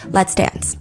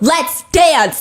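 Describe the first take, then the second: First: It is said plainly at normal volume. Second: It is bellowed out loudly and powerfully. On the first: "I'm not even going to say it right now in the way she says it. I'm just going to give you the two words" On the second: "She better bellow out a"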